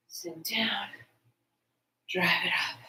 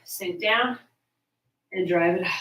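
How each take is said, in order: First: Breathy whispered cue, voice dropped low; whispering. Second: Said in the usual way. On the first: Shown as a demonstration. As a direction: whisper the rep cue under your breath. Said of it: "instructor cueing repeated rep". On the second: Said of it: "instructor cueing a squat rep".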